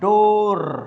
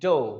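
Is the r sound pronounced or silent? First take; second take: pronounced; silent. First: The final r sound is clearly pronounced. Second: The final r sound is dropped. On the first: The speaker calls it wrong. "Don't से" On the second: The speaker calls it right. "से"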